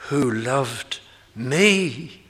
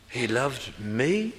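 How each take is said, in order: First: "me" drawn out slow and leaned on; slow, weighty stress on "me". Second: Said in the usual way. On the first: Shown as a demonstration. Preacher reading Paul aloud, leaning hard on "me". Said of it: "You can hear the emphasis on the me". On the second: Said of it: "emphasis on the me".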